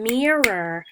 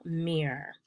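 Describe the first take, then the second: First: MIRROR stretched slow and loud on its first syllable; stress on first syllable. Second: Mirror cut to its first syllable "meer", softer; first syllable alone. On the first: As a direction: draw out and punch the start of mirror. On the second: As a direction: say only "meer" of mirror, dropping the second syllable. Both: Shown as a demonstration. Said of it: "the stress is on the first syllable".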